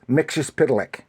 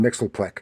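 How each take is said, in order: First: The name sounds like Mixus Pitalik. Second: The name sounds like Mixelplek. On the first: The speaker calls it right. "but it's Mixus Pitalik" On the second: The speaker calls it wrong. "a lot of people want to call him Mixelplek because they don't know how to"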